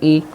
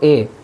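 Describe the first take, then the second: First: The vowel is a high 'ee' sound. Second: The vowel is a mid 'eh' sound. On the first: The speaker calls it right. "और मारूफ किस तरीके से होगा" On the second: The speaker calls it wrong. "ये मजहूल हुआ"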